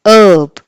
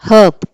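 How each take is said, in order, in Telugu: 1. ఈ పదం ఏ h శబ్దం లేకుండా మొదలవుతుంది. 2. ఈ పదం వినిపించే h శబ్దంతో మొదలవుతుంది. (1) "అదే అమెరికన్ ప్రొనౌన్సియేషన్ అయితే మాత్రం" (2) "బ్రిటిష్ ప్రొనౌన్సియేషన్లో మనము హెచ్ని పలుకుతాం"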